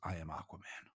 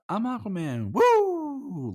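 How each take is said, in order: First: It is said in a serious, regal way. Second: It is said in a goofy, playful way.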